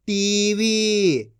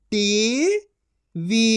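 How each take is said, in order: First: TV as one joined word; long TV, falling at the end; blended reading. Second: TV split into टी, pause, वी; syllable by syllable. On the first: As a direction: join टी and वी. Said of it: "इनको आपस मिला के पढ़". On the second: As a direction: sound out TV in two syllables. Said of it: "एक एक अक्षर का उच्चारण करके". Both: Shown as a demonstration.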